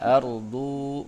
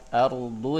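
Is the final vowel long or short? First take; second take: long; short. First: The final vowel is drawn out long. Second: The final vowel is kept short. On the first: The speaker calls it wrong. "tidak ardu" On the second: The speaker calls it right. "itu tidak ketarik"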